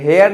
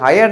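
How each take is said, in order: First: It begins with h and sounds like hair. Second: It begins with h and sounds like hire. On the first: "हेयर नहीं पढ़ते" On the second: "हायर नहीं पढ़ते"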